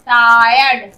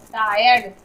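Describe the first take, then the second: First: Loud टायर्ड with a lengthened "taa-yard"; drawn-out sounding out. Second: Said in the usual way. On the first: Shown as a demonstration. Teacher showing the I sound, टायर्ड loudly sounded out. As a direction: lean on the long first part of टायर्ड. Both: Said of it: "आई का sound आई के रूप में".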